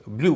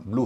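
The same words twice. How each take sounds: First: ब्लू said as "blyoo"; ब्लू the popular way, as "blyoo"; common y-glide version. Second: ब्लू said as "bloo", no y; correct oo sound. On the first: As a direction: add a y after the l in ब्लू. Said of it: "कई लोग इसे ब्लू कहते हैं". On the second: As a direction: go straight from l to oo in ब्लू. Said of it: "इसका उच्चारण ब्लू होगा". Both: Shown as a demonstration.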